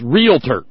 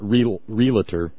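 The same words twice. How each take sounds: First: No vowel is heard between L and T. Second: An extra vowel is heard between L and T. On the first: The speaker calls it right. "It's realtor" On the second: The speaker calls it wrong. "it's not realtor. That would be R-E-L-A-T-O-R"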